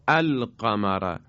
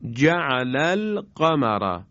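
First: القمر started alone as al-qamar with a fatha, slow; slow drawn al-qamara; Quranic recitation. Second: Slow جعل القمر with the alef of القمر silent; slow linked جعل القمر; Quranic recitation. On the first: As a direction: begin القمر with an a-sound. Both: Shown as a demonstration.

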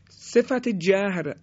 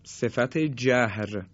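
First: صفت جهر said higher and slowly, stress on صفت; raised title repeat. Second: صفت جهر drawn out slowly, falling at the end; slow title read. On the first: Teacher repeating the topic title, higher and slower. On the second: Teacher announcing the topic, slow and falling. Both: Shown as a demonstration.

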